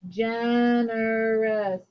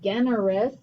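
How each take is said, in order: First: The word begins with a soft J sound. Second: The word begins with a hard G sound. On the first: The speaker calls it right. "Here's our soft G" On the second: The speaker calls it wrong. "I don't say generous"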